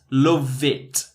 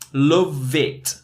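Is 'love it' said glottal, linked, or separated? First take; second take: linked; linked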